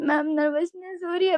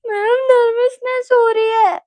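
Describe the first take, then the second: First: Raised but restrained mock whining; lightly whimpered complaint; imitated tearful plea. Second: High, loud, drawn-out sob; imitated bawling. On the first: Nervous student explaining to ma'am, subdued mock tearful plea. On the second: Nervous student crying to ma'am, exaggerated bawling. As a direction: wail it through hammed-up tears. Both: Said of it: "भैं-भैं करके रो रही हूँ".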